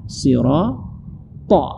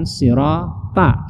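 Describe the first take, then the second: First: "sirata" ending in a heavy, dark "to"; slow "sirata" with rounded final ta; emphatic T in "sirata"; correct thick ta. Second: "sirata" ending in a light open "ta"; slow "sirata" with a plain T; unthickened last syllable of "sirata"; wrong thin ta. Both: Shown as a demonstration. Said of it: "Bukan sirata".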